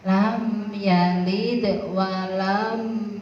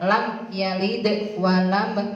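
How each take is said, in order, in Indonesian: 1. Bunyi m dipanjangkan dan diseret. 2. Bunyi m diucapkan pendek dan jelas. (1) "Tidak boleh diseret" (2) "harus dibaca jelas"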